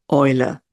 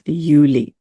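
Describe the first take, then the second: First: "Eule" said the German way, OY-luh; German pronunciation. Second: "Juli" said the English way, YOO-lee; anglicised "Juli", ending in a lee sound; English pronunciation. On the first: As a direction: say "Eule" as in German, starting with an oy sound. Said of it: "in German, we actually pronounce it". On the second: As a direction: say "Juli" starting like the word you. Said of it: "English version of pronouncing it". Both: Shown as a demonstration.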